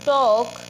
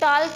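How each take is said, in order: First: The word is said without an l sound. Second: The word is said with an l sound. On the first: The speaker calls it right. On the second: The speaker calls it wrong.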